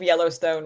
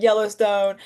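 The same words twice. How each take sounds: First: Said in the usual way. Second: Drawled Texas accent. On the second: Shown as a demonstration. Fan immersed in the world of Yellowstone, Texas accent. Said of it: "a Texas accent or what I think is a Texas accent".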